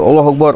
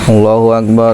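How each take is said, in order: First: It is said at a quick, hurried pace. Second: It is said at a slow, relaxed pace. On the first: "eta gancang deui" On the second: "ka santai"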